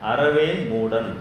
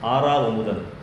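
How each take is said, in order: First: The first vowel is short. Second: The first vowel is long. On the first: The speaker calls it wrong. "அதை ஒருத்தர் வாசிக்கிறாரு" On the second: The speaker calls it right. "ஒரு பேர்"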